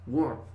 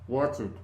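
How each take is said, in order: First: The word is said as one single syllable. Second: The word is said as two separate syllables. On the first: The speaker calls it right. "É um som saindo lá" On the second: The speaker calls it wrong. "se eu falasse o jeito que os brasileiros falam ... eu vou falar duas sílabas"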